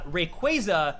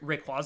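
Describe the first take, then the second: First: The name is pronounced the official way. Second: The name is pronounced as read from its spelling. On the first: The speaker calls it right. "specifically supposed to be called" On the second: The speaker calls it wrong. "that's like how I read it as a kid growing up"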